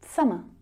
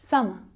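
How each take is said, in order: First: The word 'of' shrinks to a schwa. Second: The word 'of' shrinks to a schwa.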